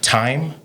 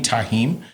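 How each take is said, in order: First: The name is said as one syllable, 'time'. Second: The name is said in two syllables, 'ta-heem'. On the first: Someone else misread the name. The speaker calls it wrong. "she's like, time, time Davis" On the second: This is how the name is really said. The speaker calls it right. "you mean Tahim?"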